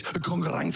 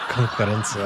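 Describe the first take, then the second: First: Konkurrence said with French flair; Danish pronunciation. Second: Konkurrence repeated in Danish style; imitating Danish. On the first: Shown as a demonstration. Comedian showing a Danish word, konkurrence in French style. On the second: Teacher echoing the comedian, imitating konkurrence. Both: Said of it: "But in Danish".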